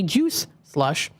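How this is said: There is a short pause between the two words. The speaker calls it right. "I always have to like pause before I, in between the words juice"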